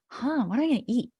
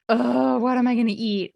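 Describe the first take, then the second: First: It sounds curious and excited. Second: It sounds annoyed and full of dread.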